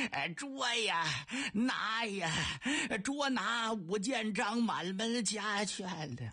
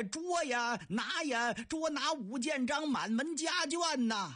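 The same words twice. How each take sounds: First: Slow, strained cry with the voice giving out; a croaking call with nothing left in the throat; hoarse worn-out shout. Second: Repeated bellow. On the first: Soldiers whose voices are gone after dozens of shouts, slow strained croak. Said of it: "这几位嗓子都哑了". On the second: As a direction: bawl it out once more on command. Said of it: "再喊一遍". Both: Acted.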